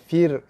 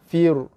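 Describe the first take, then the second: First: The r is pronounced light and thin. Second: The r is pronounced heavy and thick. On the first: The speaker calls it right. "baru betul" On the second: The speaker calls it wrong. "tu ro tebal"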